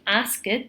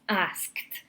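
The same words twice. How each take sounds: First: The ending is pronounced as an extra vowel syllable. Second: The ending is a plain T with no vowel. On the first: The speaker calls it wrong. "we do not say asked" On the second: The speaker calls it right. "it's asked"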